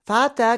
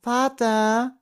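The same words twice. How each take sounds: First: Put-on high little boy's voice, falling, louder; child tugging at his father's attention; boy calling his father again; insistent child's call. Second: Put-on a small boy calling his father, pitched high; high child voice calling out, rising; five-year-old calling for his father; bright child's voice. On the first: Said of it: "Thomas' helle Stimme". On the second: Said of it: "ließ sich Thomas' helle Stimme hören". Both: A narrator's reading.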